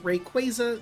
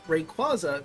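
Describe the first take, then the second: First: The ending is said like the word 'quasar'. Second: The ending is not said like 'quasar'. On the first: This is the technically intended form. The speaker calls it wrong. "Rayquaza sounds dumb" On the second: This is the form the speaker prefers. The speaker calls it right. "Rayquaza sounds correct"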